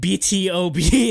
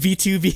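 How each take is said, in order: First: Every part is said as a letter name. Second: The middle is said as the number two. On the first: The speaker calls it right. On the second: The speaker calls it wrong.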